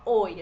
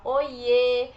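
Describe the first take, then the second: First: Said in the usual way. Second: Loud, stretched-out happy hello; glad-to-see-you greeting, much louder; happy affectionate greeting. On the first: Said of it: "A gente não fala só oi". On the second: Shown as a demonstration. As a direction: draw out "Oiê" with delight. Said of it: "É quando a gente tá feliz".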